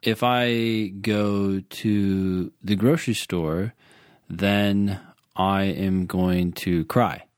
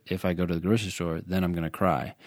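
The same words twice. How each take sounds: First: Slow and deliberate, every word laid out; slow example sentence. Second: Fast and a bit softer, rattled off; quick quoted rule. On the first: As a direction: spell out the example slowly for the student. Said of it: "So, for example". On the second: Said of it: "the if-then statement said". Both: Shown as a demonstration.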